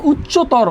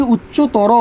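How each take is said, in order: First: "উচ্চতর" ending in a closed -tor, no final vowel; written form. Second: "উচ্চতর" with an added final o, uchcho-to-ro; correct pronunciation. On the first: Teacher reads the word as spelt, "উচ্চতর" with silent final vowel. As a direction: stop "উচ্চতর" on the r. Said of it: "শব্দের শেষে কি বলছি?". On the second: Teacher answers how it is pronounced, "উচ্চতর" ending in a clear o. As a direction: open the end of "উচ্চতর" into a round -ro. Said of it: "হবে কি?". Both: Shown as a demonstration.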